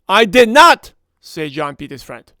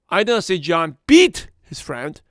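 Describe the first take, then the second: First: The word not carries the main stress. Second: The word beat carries the main stress. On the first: The claim is firmly denied. "That does a very emphasis on the statement" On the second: He did something else to the friend. "He pushed him around"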